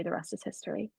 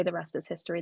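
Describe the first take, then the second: First: Quiet emphasis. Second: Said in the usual way. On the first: Shown as a demonstration. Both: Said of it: "when I say the rest is history".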